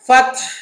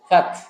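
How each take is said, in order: First: The final h is tight, from the throat. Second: The final h is light and relaxed. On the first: The speaker calls it right. "এরকম করে আমার গলাটা টেনে ধরতে হবে।" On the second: The speaker calls it wrong. "ফাতহ ছেড়ে দেই, ... তাহলে কিন্তু আমার শব্দটা হলো না।"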